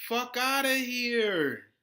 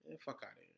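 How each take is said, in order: First: Loud, slow, drawn-out brush-off; scornful dismissal. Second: Muttered dismissal. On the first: To hypocrites demanding payback, a loud slow scornful dismissal. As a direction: stretch it out and wave them off. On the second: Dismissing the imagined opponent. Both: Real, not acted.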